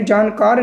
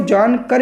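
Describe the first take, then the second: First: जानकार with a long "aa" in कार; long final vowel. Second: जान कर with a short "a" in कर; short final vowel. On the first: Teacher showing the form not to write, long-vowel जानकार. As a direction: say जानकार stretching the final "kaar". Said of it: "जानकार नहीं लिखेंगे". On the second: Teacher reading what is written, short-vowel जान कर. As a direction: say जान कर ending on a short "kar". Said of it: "यदि कार होता तो यहाँ मात्रा होती". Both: Shown as a demonstration.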